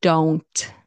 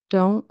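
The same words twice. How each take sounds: First: "Don't" with full N and T; T pronounced. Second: "don't" ending in a nasal, no T. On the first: Teacher showing the full word, N and T sounded. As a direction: finish "Don't" on a released T. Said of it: "When you pronounce the T". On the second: Teacher showing the reduced word, nasal ending. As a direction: let "don't" stop in the nose. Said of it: "more of a nasal sound". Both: Shown as a demonstration.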